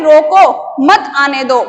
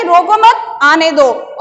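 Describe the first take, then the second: First: Slow, loud "रोको", pause, then "मत आने दो"; pause after रोको. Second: "रोको मत" louder as one unit, then "आने दो"; pause after मत. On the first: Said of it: "और दूसरे में है". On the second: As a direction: break after मत, let आने दो fall away. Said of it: "पहले था कि". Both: Shown as a demonstration.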